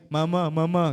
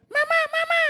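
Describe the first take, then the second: First: Matured, ordinary-pitched call; grown-up voice. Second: Put-on tiny, very high squeaky child calling mama; high-pitched childish call; young child's voice. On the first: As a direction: say it in a grown person's register. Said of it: "Oh, paglaki". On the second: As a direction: squeal it like a little kid. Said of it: "pati yung boses. Nag-iiba". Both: Shown as a demonstration.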